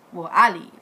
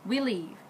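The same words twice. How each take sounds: First: "I" punched louder; stress on I. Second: Said in the usual way. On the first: Real, not acted. Cousin is dead so she corrects herself, stressed "I". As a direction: correct it by hitting "I" hard.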